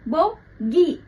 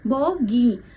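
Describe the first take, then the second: First: The final syllable is said strongly and separately. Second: The final syllable is said softly and lightly. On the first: The speaker calls it wrong. "ऐसे नहीं बोलते हम" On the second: The speaker calls it right. "तो यहाँ पर धीरे बोला जाता है।"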